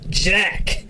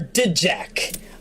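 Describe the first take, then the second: First: The name starts without a separate D sound. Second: The name starts with a clear D sound. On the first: "possibly pronounced the Russian way" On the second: "I like to pronounce the D"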